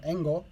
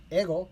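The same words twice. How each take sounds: First: "engo" with an n before the g; variant "engo". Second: "ego" with no n before the g; variant "ego". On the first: Learner recapping the Japanese word for English, variant "engo" with n. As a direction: say "engo", sounding ng between e and o. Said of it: "E N G O". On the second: Learner recapping the Japanese word for English, variant "ego" without n. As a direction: say "ego", going straight from the vowel into g. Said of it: "or "engo," E N G O". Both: Shown as a demonstration.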